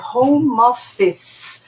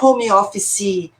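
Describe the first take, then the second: First: The word ends on the 's' sound, no vowel. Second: A vowel is sounded after the final 'c' sound. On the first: The speaker calls it right. "O E no final não é falado" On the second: The speaker calls it wrong. "não é home office"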